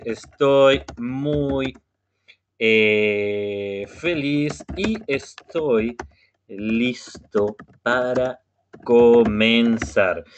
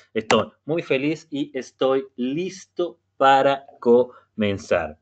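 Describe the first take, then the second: First: Very slow, drawn-out model sentence; slow demo phrase for the class; slow speech. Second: Said in the usual way. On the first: Shown as a demonstration. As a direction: spell it out slowly for learners. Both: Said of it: "voy a hablar un poquito más despacio".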